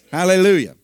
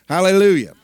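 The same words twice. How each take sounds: The two takes are said the same way.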